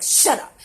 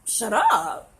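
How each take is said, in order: First: Sudden loud snapped retort; sharp, punched-out mock outburst; mock snapping. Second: Loud, drawn-out offended disbelief; taken aback, stretching the words; incredulous echo. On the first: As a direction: imitate someone snapping out of nowhere. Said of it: "they're just snapping at you". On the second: Retold or imitated. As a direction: throw it back as a stunned question. Echoes the snap back, offended.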